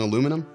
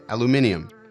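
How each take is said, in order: First: The word is said the American way. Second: The word is said the British way. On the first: "instead of saying aluminum" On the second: "that's the British way to say that"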